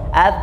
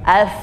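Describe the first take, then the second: First: The final sound stops the breath abruptly. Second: The final sound lets the breath keep flowing. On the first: The speaker calls it wrong. "Kalau bagian luar nanti dia akan terhenti hembusan nafasnya" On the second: The speaker calls it right. "supaya anginnya terus keluar"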